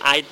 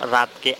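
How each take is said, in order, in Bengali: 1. শব্দটি স্বরধ্বনি দিয়ে শুরু হয়, R ছাড়া। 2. শব্দটি R ধ্বনি দিয়ে শুরু হয়। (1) "তারা র ধ্বনিটা উচ্চারণ করতে পারে না" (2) "রাতকে আইত বলে"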